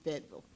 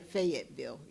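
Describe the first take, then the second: First: It is said the way locals say it. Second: It is said the way outsiders say it. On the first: The speaker is from the area. The speaker calls it right. "It would be Fayetteville" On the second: The speaker is not from the area. The speaker calls it wrong. "You wouldn't say Fayetteville"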